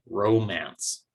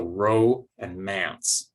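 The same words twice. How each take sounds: First: Said in the usual way. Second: "row" and "manse" said slowly as two separate parts; slow sounding-out of "row" and "manse", short vowel in "manse"; syllable by syllable. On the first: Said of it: "So row and manse". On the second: Shown as a demonstration. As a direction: break it into "row", then "manse", drawn out. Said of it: "it's gonna remain a short vowel sound".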